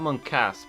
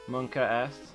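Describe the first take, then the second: First: The S is joined onto the word. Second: The S is said as a separate letter. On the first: The speaker calls it wrong. "It's not Monkas" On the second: The speaker calls it right. "I think that's probably how you say it"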